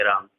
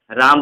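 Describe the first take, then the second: First: राम with the aa held long on one breath; a long held राम as in chanting; prolonged pluta Ram. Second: Said in the usual way. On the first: Shown as a demonstration. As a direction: draw out राम like a sage chanting the name. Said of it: "लंबा जब उच्चारण करना चाहते हैं तो". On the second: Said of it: "simple हम राम बोलते हैं".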